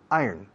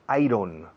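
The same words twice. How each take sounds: First: It sounds like 'I earn', stress on the first part. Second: It is said as spelled, with a clear 'ron'. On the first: The speaker calls it right. "se pronuncia iron" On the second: The speaker calls it wrong. "No me digáis iron"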